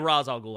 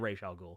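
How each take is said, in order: First: The name is said the other way, not the cartoon's. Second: The name is said the animated-series way. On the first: This is the version the speaker avoids. "I don't say Ra's al Ghul" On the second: This is the version the speaker uses. "I say Ra's al Ghul"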